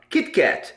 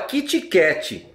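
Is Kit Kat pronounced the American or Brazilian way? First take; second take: American; Brazilian. First: It is said with an American English pronunciation. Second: It is said with a Brazilian Portuguese pronunciation. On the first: The speaker calls it right. "E ele se fala Kit Kat" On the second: The speaker calls it wrong. "No Brasil se fala Kit Kat"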